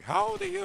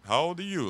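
First: Very high, squeaky mom voice; mock mom. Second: A bit higher, lightly voiced stern dad; hint of a suspicious father on the phone; only mildly put-on dad voice; mock dad. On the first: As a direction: impersonate a suspicious mother on the phone. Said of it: "The mom be like". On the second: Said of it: "Or the dad and shit".

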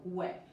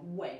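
First: WE (way) as "gway", with a G in front; wrong G for W. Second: WE (way) with rounded lips and no G; American W. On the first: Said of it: "no we". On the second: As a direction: say "way" with a smooth English W. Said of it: "Nosotros decimos we". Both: Shown as a demonstration.

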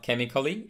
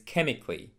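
First: CHEMICALLY in four syllables, "kem-i-kuh-lee"; mispronounced chemically. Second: CHEMICALLY in three syllables, "KEM-ik-lee"; correct chemically. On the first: Teacher showing the mistake, chemically with A sounded. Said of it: "not chemically". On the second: Teacher modelling chemically like physically, A left silent. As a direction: drop the A after C in "chemically". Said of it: "In the same manner". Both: Shown as a demonstration.

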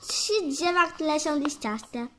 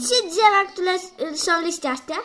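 First: Slower and clearer, dropping back in level; slower repeat. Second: Louder, higher quiz question. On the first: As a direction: spell it out again for the puzzled kid. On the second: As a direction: fire the question at the class. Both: Pretend.

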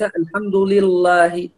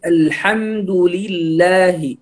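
First: الحمد لله with a thick, dark lam in لله; heavy lam mispronunciation. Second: الحمد لله slowly, with a thin lam in لله; light lam. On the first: Teacher shows the wrong reading, heavy lam in لله. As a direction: make the l of لله heavy, as a mistake. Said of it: "هذا خطأ". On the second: Teacher corrects the reading, slow light lam in لله. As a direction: keep the l of لله light and drawn out. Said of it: "هنا ترقيق لام لفظ الجلالة". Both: Shown as a demonstration.

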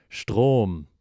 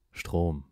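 First: Louder, sudden realization; shocked exclamation. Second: Said in the usual way. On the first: Acted. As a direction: blurt "Strom!" as it dawns on him.

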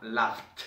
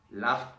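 First: "laughed" closed with a clear t; final T. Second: Said in the usual way. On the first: Shown as a demonstration. Teacher repeating the contrast, "laughed" with a final t sound. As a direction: finish "laughed" on f plus t. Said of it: "La única diferencia es entre esta y esta". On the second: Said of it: "La única diferencia es".

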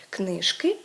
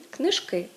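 First: "книжки" stressed on the first syllable, КНИ-жки. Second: "книжки" stressed on the last syllable, книж-КИ. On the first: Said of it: "В першому випадку йдеться про родовий відмінок однини". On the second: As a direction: push the stress onto КИ in "книжки". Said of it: "у другому випадку йдеться про називний відмінок". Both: Shown as a demonstration.

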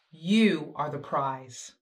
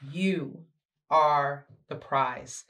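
First: Said in the usual way. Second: You, beat, ARE the prize, slowly; slow repeat with weight on "are"; stress on are. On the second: Shown as a demonstration. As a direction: pause after You, then lean on "are".

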